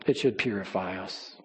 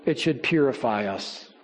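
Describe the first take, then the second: First: Much softer and lower repeat; soft echo. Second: Said in the usual way. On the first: Real, not acted. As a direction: let the repeat sink into a hush.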